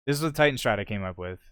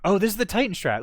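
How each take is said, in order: First: Said in the usual way. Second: Excited. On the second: Real, not acted. Spotting his strat on replay.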